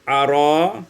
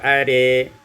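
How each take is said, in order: First: The final vowel is an open 'a'. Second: The final vowel is tilted toward 'e'.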